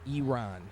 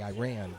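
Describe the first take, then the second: First: The first vowel is an 'ee' sound. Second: The first vowel is not an 'ee' sound. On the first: The speaker calls it right. "it's like E, the letter E, and then the name Ron" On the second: The speaker calls it wrong. "I used to probably say Iran"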